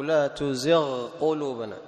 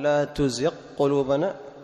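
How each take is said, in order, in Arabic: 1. يُنطق صوت gh بوضوح قبل q. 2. يُدغم صوت gh في q الذي بعده.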